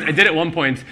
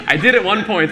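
First: Said in the usual way. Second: Laughing through the admission; owning up with a laugh; laughing confession. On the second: Real, not acted. Author admitting she tossed the starter, laughing.

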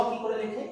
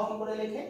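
Both takes have the same delivery.

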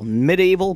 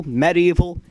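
First: "medieval" said mid-ee-val, first syllable "mi"; common pronunciation. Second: "medieval" with a short e, meh-DEE-val; preferred pronunciation. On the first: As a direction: say "medieval" with an ee sound, mi-DEE-val. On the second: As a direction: open "medieval" with meh, as in "bed". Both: Shown as a demonstration. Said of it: "It should be pronounced medieval because it's an E".

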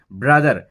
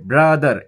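First: Said in the usual way. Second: "brother" stretched as "bra ... দার"; two-beat emphatic "brother"; broken into syllables. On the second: Shown as a demonstration. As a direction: hold "bra", then give "দার" its own beat. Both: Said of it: "bra বলে একবার থামছি".

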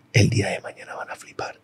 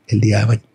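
First: Whispered to himself, no voice at all; inner whisper. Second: Said in the usual way. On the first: Retold or imitated. Teen tells himself inside while refusing help, whispering. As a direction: breathe it like a secret promise. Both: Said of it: "y por dentro era".

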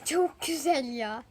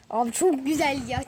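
First: "çok güzel ya" drawn out very slowly; slowly, dreamily amazed; slow savoring. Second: Said in the usual way. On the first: Real, not acted. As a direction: stretch each word of "çok güzel ya" in awe. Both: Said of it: "repeats it slowly".

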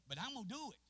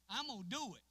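First: Raised, higher preaching declaration; preaching vow. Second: Louder, higher repeat of the vow; preaching shout. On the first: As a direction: declare it with force. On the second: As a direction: hit it harder the second time. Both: Acted.

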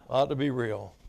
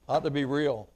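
Both takes have the same delivery.

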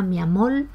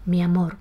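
First: "mi amor" with final R turned to L, "mi amol"; Cuban L for R. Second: Said in the usual way. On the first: Shown as a demonstration. Teacher illustrating Cuban pronunciation, "mi amor" ending in L. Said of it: "la realización cubana". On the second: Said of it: "por mi amor".

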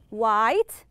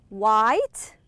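The two takes are said the same way.

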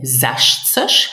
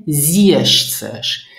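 First: "sechzig" with a short open e, zesh-tsesh; first variant. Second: "siebzig" with a long ee glide, zee-esh-tsesh; slow, stretched "siebzig" as zee-esh-tsesh; alternative variant. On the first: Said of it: "some people will not say sechzig". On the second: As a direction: model "siebzig" with a drawn-out first vowel. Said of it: "They will say siebzig". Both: Shown as a demonstration.

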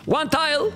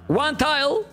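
The two takes are said the same way.

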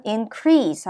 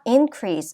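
First: InCREASE, second syllable stressed as a verb. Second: INcrease, first syllable stressed as a noun. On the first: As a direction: keep in- light, hit CREASE in "increase". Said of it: "뒤에 강세가 와서". ("increase"의 뒤 음절 crease에 강세) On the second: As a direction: hit IN in "increase", keep -crease lighter. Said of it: "앞에 강세가 와서". ("increase"의 앞 음절 in에 강세) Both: Shown as a demonstration.

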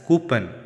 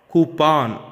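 First: "coupon" with a weak ending, "koo-pun"; wrong COUPON. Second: "Coupon" with a full "pawn" ending; correct COUPON. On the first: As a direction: swallow the second vowel of "coupon". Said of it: "Commonly mispronounced word as". ("coupon" mispronounced as "koo-pun") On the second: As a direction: open up the second syllable of "Coupon", loud. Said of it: "Second syllable must be pawn". ("Coupon" as "koo-pawn") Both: Shown as a demonstration.

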